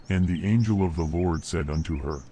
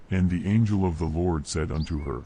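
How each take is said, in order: Both takes have the same delivery.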